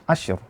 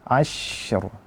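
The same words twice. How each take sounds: First: The sh sound is cut short. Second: The sh sound flows on continuously. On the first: The speaker calls it wrong. "Itu tidak sempurna rikhawahnya" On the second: The speaker calls it right. "suaranya mengalir ketika kita baca"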